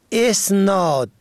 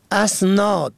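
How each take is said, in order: First: "اسناد" pronounced esnād; opening E vowel. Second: "اسناد" pronounced asnād; opening A vowel. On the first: Radio teacher contrasts the look-alike word, opening E vowel. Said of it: "و اسناد به کسر الف". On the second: Radio teacher introduces the first look-alike word, opening A vowel. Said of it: "اسناد به فتح الف". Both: Shown as a demonstration.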